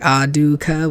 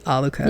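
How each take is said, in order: First: The middle consonant is a D sound. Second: The middle consonant is an L sound. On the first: "with like a D" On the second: "they don't say it like Aluka in the Japanese version"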